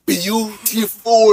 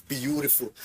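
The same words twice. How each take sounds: First: BEAUTIFUL drawn right out, higher and louder; emphasis on BEAUTIFUL. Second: Said in the usual way. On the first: Shown as a demonstration. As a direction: stretch BEAUTIFUL slowly and punch it loud. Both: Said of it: "Emphasis on beautiful".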